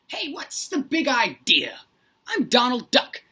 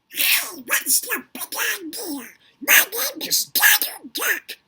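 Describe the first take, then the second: First: Donald Duck voice without the added buzzy filter. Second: Donald Duck voice with the buzzy filter added.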